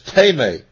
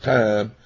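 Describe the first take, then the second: First: The first vowel is an 'ee' sound. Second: The first vowel is an 'eye' sound. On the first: The speaker calls it right. "but it's teme" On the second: The speaker calls it wrong. "You want to pronounce it time"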